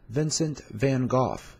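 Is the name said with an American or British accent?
British. It is said with a British accent.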